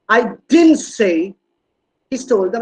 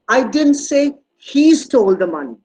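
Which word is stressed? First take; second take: didn't; he. First: The stress falls on the word "didn't". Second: The stress falls on the word "he". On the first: It is strongly denied that it was said. "Look at the stress on didn't. It's a strong negation" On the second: Someone else may have taken the money. "It was it could be somebody else"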